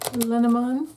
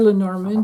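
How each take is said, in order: First: The word is pronounced the French way. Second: The word is pronounced the English way.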